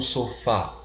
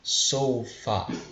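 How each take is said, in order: First: The stress is on the last syllable. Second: The stress is on the first syllable. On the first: The speaker calls it wrong. "e não sofá, parecido com o português" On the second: The speaker calls it right. "a gente pronuncia sofa"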